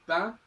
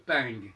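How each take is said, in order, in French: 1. Le mot se termine par une voyelle nasale sans g. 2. Le mot se termine par un son ng audible.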